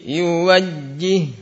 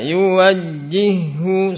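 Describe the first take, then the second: First: The word ends on a pressed doubled consonant. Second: The word ends with a final short vowel. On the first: The reading stops at this word. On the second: The reading continues into the next word.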